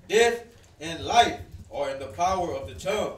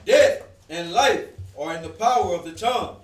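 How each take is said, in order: First: It is read at a normal, quieter volume. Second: It is read louder, with more power.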